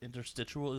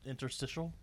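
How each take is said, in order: First: The word has an extra 'oo' sound near the end. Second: The word has no extra 'oo' sound near the end. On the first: The speaker calls it wrong. "I don't think there's a U in it" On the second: The speaker calls it right. "Isn't it interstitial?"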